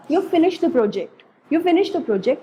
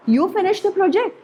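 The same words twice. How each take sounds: First: Said in the usual way. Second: Higher pitch, "project" swinging up; question intonation. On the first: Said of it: "अगर हमने इसको simple वे में बोला". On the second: Shown as a demonstration. Teacher showing the question mark version, rising tone. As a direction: ask it with a high rise on "project". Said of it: "जब question mark में बोला".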